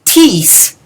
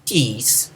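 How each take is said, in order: First: Tis punched high and loud; accented tis. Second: Tis dropped soft and unstressed; unaccented tis. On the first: Teacher showing the indefinite tis, strongly stressed. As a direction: hit tis hard with a high pitch. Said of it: "is indefinite". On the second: Teacher showing the interrogative tis, left unstressed. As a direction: say tis quietly, with no punch. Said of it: "is the what". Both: Shown as a demonstration.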